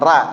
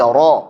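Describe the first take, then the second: First: The r sound is thin and light. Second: The r sound is thick and heavy. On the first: The speaker calls it wrong. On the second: The speaker calls it right. "ra tebal"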